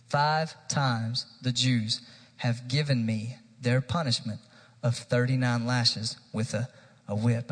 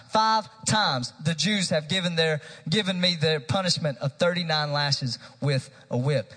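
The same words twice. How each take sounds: First: Focused rereading. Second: Raised, driving preacher's reading; impassioned scripture reading. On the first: Real, not acted. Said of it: "I want us to focus on this". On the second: Acted. Preacher reading Paul's list of sufferings to church, impassioned. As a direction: read it out forcefully as Paul's defence. First read-through of Paul's defence.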